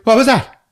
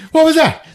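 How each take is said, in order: First: High, loud, stunned yelp; dazed shock. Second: High, loud, breaking into laughter; laughing retelling. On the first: Al Pacino knocked down, asking who hit him, stunned. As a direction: act knocked silly and confused. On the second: Retelling Pacino's dazed question, laughing through it. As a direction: crack up mid-line. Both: Retold or imitated. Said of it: "He's like".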